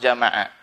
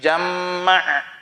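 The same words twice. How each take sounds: First: The m sound is single and short. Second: The m sound is doubled and held longer. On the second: "dibaca tasdid"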